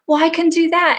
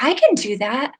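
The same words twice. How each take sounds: First: The client now fully convinced; excited confidence. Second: Higher, trying the idea out; a client just discovering she could; tentative realization. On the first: Client now certain she can do it, excited. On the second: Clients gaining confidence, retold. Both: Retold or imitated.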